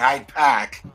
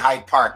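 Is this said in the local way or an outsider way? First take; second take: local; outsider. First: It is said in the local Boston pronunciation. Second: It is said in a non-local pronunciation. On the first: This is how locals say it. The speaker calls it right. "we say Hyde Park over here" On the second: This is not how locals say it. The speaker calls it wrong. "We don't say Hyde Park"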